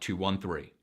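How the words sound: The pitch falls across the numbers.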